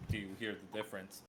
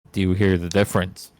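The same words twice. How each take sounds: First: Much softer and faster, far off; distant, quiet, hurried; far from the mic. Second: Loud and close on the pop filter; right up on the mic, louder. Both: Shown as a demonstration.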